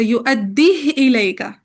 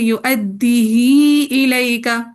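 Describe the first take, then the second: First: The h carries no vowel after it. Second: The vowel after h is lengthened. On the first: "इसकान के साथ पढ़ना होता है, हा को साकिन करके" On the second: "सिला करके पढ़ेंगे"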